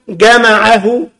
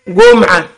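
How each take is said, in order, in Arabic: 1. الكلمة تُقال 'jama'ahu'. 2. الكلمة تُقال 'jum'a'. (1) "وهو الكتاب مكتوب جمعه" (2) "فكلمة جمعه قرأها إيه؟"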